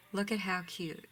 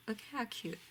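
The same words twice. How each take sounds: First: Said in the usual way. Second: Higher and softer, cooing. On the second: Real, not acted. Cooing at the bunnies to her viewers, higher and softer. Cooing over bunny ribbon.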